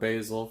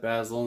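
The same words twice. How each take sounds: First: The word is said in the American way. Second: The word is said in a non-American way. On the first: "for uh, you guys here in America. I know everybody calls it basil" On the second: "I said basil instead of basil"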